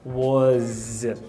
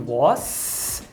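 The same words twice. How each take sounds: First: The word ends with a voiced z sound. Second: The word ends with a voiceless s sound. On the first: "eu percebo aqui um vozeamento" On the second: "em vez de was"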